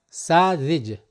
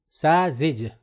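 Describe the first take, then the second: No difference in how they are said.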